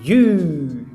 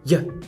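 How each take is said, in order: First: The vowel is a long oo sound. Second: The vowel is reduced to a short schwa. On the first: "é pronunciada com o U longo" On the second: "ela vai virar o chuazinho"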